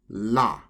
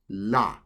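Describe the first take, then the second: First: The syllable begins with an L-like sound. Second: The same.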